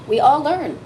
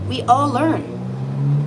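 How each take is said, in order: First: Said in the usual way. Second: Each word stretched very slowly; slow and drawn out. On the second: Shown as a demonstration. Reader repeating it slowly so the viewer gets it. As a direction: let it sink in, word by word. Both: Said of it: "I'll show you again".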